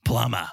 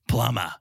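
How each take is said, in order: First: The word is said in a Boston accent. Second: The same.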